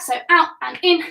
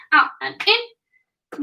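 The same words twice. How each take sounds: First: Said in the usual way. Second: "out and in" drawn out slowly, stretched words; slow it right down to show the move; slowed demo. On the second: Shown as a demonstration.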